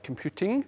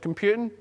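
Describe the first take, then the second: First: It is said clearly with the T pronounced. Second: It has a west of Scotland accent, T dropped.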